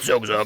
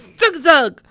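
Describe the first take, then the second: First: It is said in a deep bass voice. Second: It is said in a higher tenor voice.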